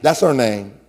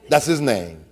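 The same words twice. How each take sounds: First: "her" stressed lightly. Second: "his" stressed lightly, said softer. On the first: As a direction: lean on "her". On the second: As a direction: lean on "his". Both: Shown as a demonstration.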